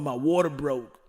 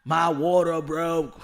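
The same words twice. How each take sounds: First: Lightly voiced man in labor, told quickly; a hint of panic, quick "my water broke"; mock dude in labor. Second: Slow, louder "My water broke", each word stretched; drawn-out mock panic. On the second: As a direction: lean into it like a hammed-up man in labor. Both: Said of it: "having that time of the month and wanna have a baby".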